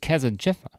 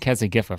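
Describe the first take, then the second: First: The consonant before 'ifa' is a J sound. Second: The consonant before 'ifa' is a hard G. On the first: The speaker calls it right. "But it's Kesajifa. That is how you pronounce it" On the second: The speaker calls it wrong. "I was saying Kesagifa for the longest time"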